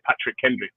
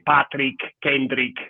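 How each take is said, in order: First: The name is said in an English accent. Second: The name is said in an Italian accent.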